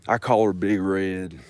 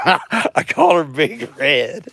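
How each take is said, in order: First: Said in the usual way. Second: High, slow, giggling as she says it; laughing at her own joke, higher and slower. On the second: Pretend. To the camera about her mower, laughing high and slow.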